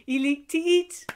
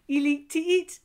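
No difference in how they are said.

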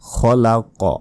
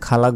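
First: The final q is released with an echoing bounce. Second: The final q stops plainly, with no bounce. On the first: The speaker calls it right. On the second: The speaker calls it wrong.

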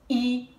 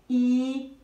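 First: The vowel is short and brief. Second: The vowel is held long.

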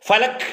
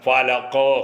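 First: The final consonant is clipped with no release. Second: The final consonant is released with an echo. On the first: The speaker calls it wrong. "ഫലക് എന്ന് പറഞ്ഞാൽ പോരാ" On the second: The speaker calls it right.

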